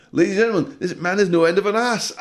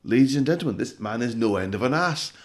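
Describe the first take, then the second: First: Much higher and louder, hammed-up clown; shrieking clown. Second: Higher, louder mocking announcement; clown ringmaster voice. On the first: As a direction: screech it like a manic clown. Clown mocking, second time. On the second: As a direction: announce it like a jeering circus clown.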